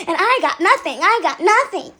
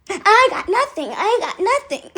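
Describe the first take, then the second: First: Said in the usual way. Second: Higher, drawn-out mock complaint; odd put-on voice. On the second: Copycat griping about getting no tips, odd put-on voice. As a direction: repeat it slowly in a put-on, higher voice. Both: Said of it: "why are you talking like that?".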